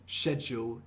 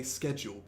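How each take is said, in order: First: "schedule" opening with sh; old British pronunciation. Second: "schedule" opening with sk; modern pronunciation. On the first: Teacher showing how people used to speak, "schedule" said with sh. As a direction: say "schedule" as SHED-yool. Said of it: "people used to say schedule in the U K". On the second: Teacher showing what young people say, "schedule" said with sk. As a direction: say "schedule" as SKED-jool. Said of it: "nowadays we just say schedule". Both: Shown as a demonstration.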